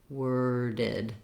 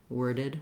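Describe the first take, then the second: First: A break comes before a strong D. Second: Both syllables flow together without a break. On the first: "I don't want to break there and I don't want a strong D" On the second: "with it all run together"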